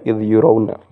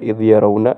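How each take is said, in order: First: The verb's first vowel is u. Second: The verb's first vowel is a. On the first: The verb is passive: they are shown. "bisa dibaca majhul" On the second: The verb is active: they see. "bisa dibaca ma maklum"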